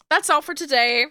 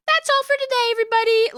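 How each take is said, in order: First: Said in the usual way. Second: High sing-song sign-off. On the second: Real, not acted. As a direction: repeat That's all for today much higher, sing-song. Sign-off repeated, sung out.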